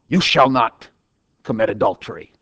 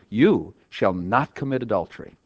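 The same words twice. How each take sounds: First: It is said as a stern, forceful command. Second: It is said as a calm, assuring promise. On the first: It orders the listener not to do it. "I turned it from an imperative" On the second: It assures the listener they will not do it. "into an indicative by the inflection of my voice"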